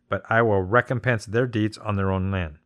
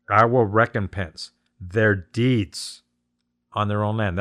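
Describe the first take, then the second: First: Said in the usual way. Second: I will recompense their deeds spoken slowly, each word weighted; slow down and lean on will in I will recompense; slow emphatic repeat. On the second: Shown as a demonstration. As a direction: spell out the key line slowly and deliberately. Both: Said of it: "That's the key part right there".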